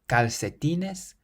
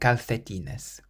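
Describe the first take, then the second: First: The second c is sounded like an s. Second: The second c is sounded like a th. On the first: "we can pronounce it either like an S" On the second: "or a T H"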